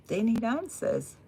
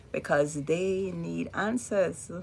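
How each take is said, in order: First: "need" pushed up and held; stress on need. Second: Said in the usual way. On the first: Real, not acted. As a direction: lean hard on "need".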